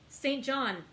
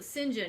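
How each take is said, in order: First: The name is said as two full words. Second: The name is run together into two short syllables. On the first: The speaker calls it wrong. "what my American brain wants to see it as" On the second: The speaker calls it right. "that's the British pronunciation"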